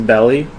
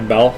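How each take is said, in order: First: The name ends with an extra vowel sound. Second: The name ends on the L sound. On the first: The speaker calls it wrong. "Am I still saying it wrong?" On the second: The speaker calls it right. "the last E is silent"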